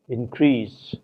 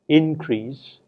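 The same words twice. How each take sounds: First: The stress is on the second syllable. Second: The stress is on the first syllable. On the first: It is used as a verb. "the second syllable is stressed if the word is a verb" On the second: It is used as a noun. "it is the first syllable which is stressed if the word is noun"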